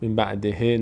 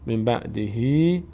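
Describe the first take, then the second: First: The last word ends in a short e sound. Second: The last word ends in a long ee sound. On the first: The speaker calls it wrong. "نه" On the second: The speaker calls it right. "صدای ای میگیره"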